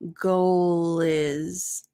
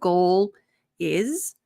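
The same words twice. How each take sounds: First: The final l runs straight into the next word. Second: The two words are separated by a small break. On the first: The speaker calls it right. "you're not going to pause" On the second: The speaker calls it wrong. "instead of"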